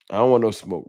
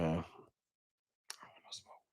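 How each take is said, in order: First: Said in the usual way. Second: Slow, breathy whisper, barely voiced. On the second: Shown as a demonstration. Streamer to chat, backing off in a whisper. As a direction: drop to a hush and stretch it out. Repeats line, then whispers it.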